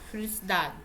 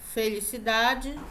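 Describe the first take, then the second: First: Spoken with a European Portuguese accent. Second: Spoken with a Brazilian Portuguese accent.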